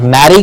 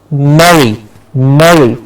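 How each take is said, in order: First: Merry said "maddy" with an open "ah"; the wrong Merry, jaw dropped to "mah". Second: Merry with a closed "eh" as in "meh-ree"; Merry, jaw closer, short "eh"; correct Merry. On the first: Teacher showing students the mistaken Merry, open ah. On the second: Teacher giving students the right Merry, jaw closer. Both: Shown as a demonstration. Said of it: "it's not Merry Christmas".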